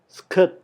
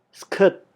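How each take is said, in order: The two takes are said the same way.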